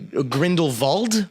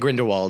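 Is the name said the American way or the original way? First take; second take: original; American. First: The name has its original, non-American pronunciation. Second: The name has an Americanized pronunciation. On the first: This is the proper pronunciation of the name. "if you want to pronounce it properly" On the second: This is how the Americans in the film say it. "all the Americans in the film say"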